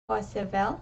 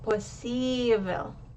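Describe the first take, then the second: First: The stress is not on the i syllable. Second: The stress falls on the i syllable. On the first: The speaker calls it wrong. "if I was to say that word without the accent" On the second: The speaker calls it right. "because the I is accented"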